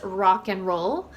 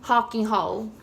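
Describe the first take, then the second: First: The R is said as an English R. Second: The R is said like an H sound. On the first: "we would pronounce this obviously as rock and roll" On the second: "in Brazilian Portuguese, they would pronounce as rock and roll"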